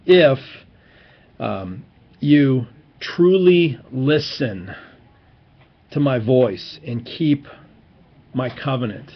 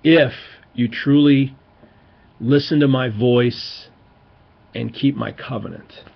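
First: Slow, weighty scripture reading with long pauses; emphatic reading. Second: A strong "If", then slow with pauses; emphatic reading. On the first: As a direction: linger on truly and listen. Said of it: "it's important that you look at the Hebrew on this". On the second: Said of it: "So there's always an "if". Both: Shown as a demonstration.

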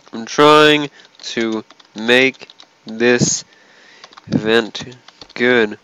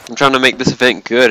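First: Slow, drawn-out complaint. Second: Fast complaint. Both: Real, not acted.

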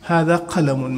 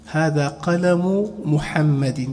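First: "قلم" slowly, ending in -un; tanween ending. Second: "قلم" drawn out as qalamu, no final n; very slow "قلم محمد", qalamu Muhammadin; tanween dropped. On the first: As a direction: say "قلم" as qalamun, with a final n. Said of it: "تنوين". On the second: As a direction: end "قلم" on a bare -u before "محمد". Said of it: "تنوين كما لا دانا". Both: Shown as a demonstration.

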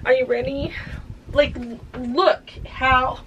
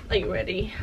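First: Excited tease. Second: Quiet tease. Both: Real, not acted. Teasing the reveal after washing.

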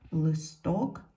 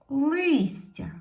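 First: "Листок" stressed on ток, и left unstressed; "Листок" as a lead-in, weight on the last syllable; stress on second syllable. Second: "листя" with a high, loud stressed и; "листя" stressed on лис, the и clear and drawn out; stress on first syllable. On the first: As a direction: say "Листок" with the beat at the end, pitch rising. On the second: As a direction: punch the first syllable of "листя", then fall. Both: Shown as a demonstration. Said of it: "І так потрібно зробити".

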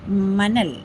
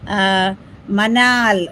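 First: മനൽ with a short second a, quick and clipped at the end; short a name. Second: മനാൽ drawn out very slowly with a long second aa; long a name. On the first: Streamer trying out a viewer's name, short-vowel version. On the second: Streamer testing a viewer's name, slow long-vowel version. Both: Shown as a demonstration. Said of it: "മനൽ എന്നാണോ മനാൽ എന്നാണോ".

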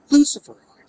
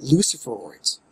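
First: Luciferoids yelped high and loud; mock the word Luciferoids with a high squeal; squeaked mockery. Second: Said in the usual way. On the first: Shown as a demonstration. Gamer mocking odd game term, Luciferoids squealed high. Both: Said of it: "Again, Luciferids".

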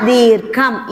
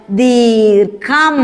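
First: Said in the usual way. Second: ദീർഘം stretched very slowly; slow drawn-out. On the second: Shown as a demonstration. Teacher stretching the word for children to repeat. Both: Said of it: "പറഞ്ഞേ".

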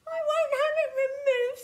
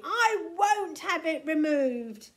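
First: Very high, loud, fast wail; mock sobbing protest in a high squeal; tearful tantrum, pitched right up; sobbed refusal. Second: Loud, emphatic, raised-pitch protest; stubborn angry outburst; screamed refusal. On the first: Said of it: "sobbed Tiny". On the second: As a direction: shout it defiantly, leaning on each word. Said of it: "screamed Tiny". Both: A narrator's reading.

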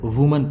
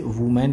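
First: वुमन as WUU-mun, weak second vowel; correct pronunciation. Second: वुमेन with a full "men" second syllable; mispronunciation demo. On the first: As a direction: say वुमन with a short unstressed "-mun" ending. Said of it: "इसे वुमन पढ़ते हैं". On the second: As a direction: say वुमेन as woo-MEN, the common mistake. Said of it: "जो गलत होता है". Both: Shown as a demonstration.

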